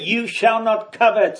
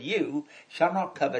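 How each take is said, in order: First: It is said as a stern command. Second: It is said as a reassuring promise.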